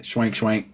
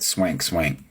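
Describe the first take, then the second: First: "Schwank Schwank" said with a sh sound at the start. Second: "Swank, swank" said with a plain s and no sh. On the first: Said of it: "Is that how you say it?". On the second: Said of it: "like dank, swank". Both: Shown as a demonstration.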